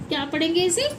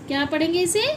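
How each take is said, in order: Both takes have the same delivery.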